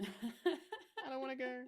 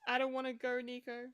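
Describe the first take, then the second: First: Slow laughing whimper. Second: Pleading Spider-Man quote. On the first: Repeats quote, slower with a laugh. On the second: Quoting Peter Parker's dying line. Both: Retold or imitated.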